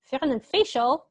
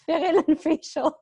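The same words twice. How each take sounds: First: Said in the usual way. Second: Slow, higher, laughing reread; teacher rereading a student's typo, laughing. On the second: Real, not acted. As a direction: savour the funny typo through giggles.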